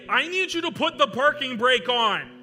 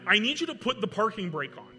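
First: It is said loudly, as a yell. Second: It is said with panic in the voice. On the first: "I yell out, and I'm not going to yell too loud" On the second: "I had a bit more panic in my voice"

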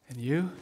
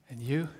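No difference in how they are said.

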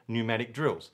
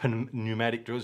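First: The first word begins without any P sound. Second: The first word begins with a sounded P. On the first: The speaker calls it right. "you get pneumatic drills" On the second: The speaker calls it wrong. "you don't get pneumatic drills"

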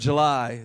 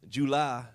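First: July is said in a standard accent. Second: July is said in a Louisiana accent. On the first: "Instead of July" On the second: "I say July"

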